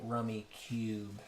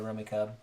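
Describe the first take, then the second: First: The last syllable rhymes with 'tube'. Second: The last syllable rhymes with 'tub'. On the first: "this rulebook really definitely wants you to say rummy cube" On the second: "some people say rummy cub"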